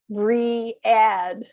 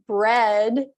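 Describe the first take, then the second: First: The word is split into two syllables. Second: The word is said as one syllable. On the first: The speaker calls it wrong. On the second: The speaker calls it right.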